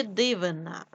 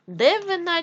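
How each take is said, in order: First: Said in the usual way. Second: Девина with е instead of и; е in first syllable. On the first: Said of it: "Дивина від слова диво". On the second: Shown as a demonstration. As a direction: say Девина with an open e after Д. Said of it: "нам потрібно вставити або".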